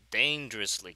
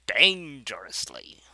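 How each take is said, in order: First: Said in the usual way. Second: DANGEROUSLY stretched slow, loud start fading to breath; slow "Dangerously", first syllable loud, the rest trailing into whisper; drawn-out dramatic emphasis. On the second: Acted. Repeats own word for effect.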